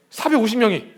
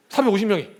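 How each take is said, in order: Both takes have the same delivery.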